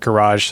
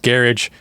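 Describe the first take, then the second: First: It is said in an American accent. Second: It is said in a non-American accent. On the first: This is how it is said in America. "that's with my American accent" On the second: Other people say it this way. "a lot of people are going to say it's garage"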